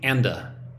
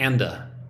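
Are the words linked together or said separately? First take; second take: linked; linked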